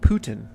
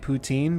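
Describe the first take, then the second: First: It sounds like the name Putin. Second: It does not sound like the name Putin. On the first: This is how the speaker now thinks it is said. "but it's like Putin, right?" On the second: This is how the speaker used to say it. "I always used to say poutine"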